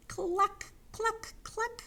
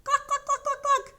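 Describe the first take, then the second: First: High hen clucks, spaced out; high-pitched chicken call; clucking hens. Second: Loud, high, rapid-fire clucks; raised, high-pitched chicken squawking; louder clucking hens. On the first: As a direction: cluck like a hen, slowly one by one. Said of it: "the hens cried". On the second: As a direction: cluck frantically like hens over the wind. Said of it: "The hens clucked louder". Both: Pretend.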